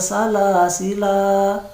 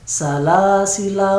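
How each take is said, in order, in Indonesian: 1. Vokal akhirnya panjang. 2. Vokal akhirnya pendek. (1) "Jadi kalau kita berhenti di situ, dia tetap dibaca panjang" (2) "maka salasila harus dibaca pendek"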